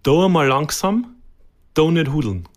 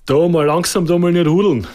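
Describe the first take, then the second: First: The sentence is said slowly. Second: The sentence is said at normal speed.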